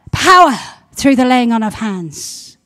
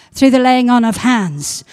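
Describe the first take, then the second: First: "Power" blasted out loud, rest dropping; loud declaration. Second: Loud proclamation. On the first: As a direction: shout the word "Power" then proclaim. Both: Real, not acted. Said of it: "repeated proclamation".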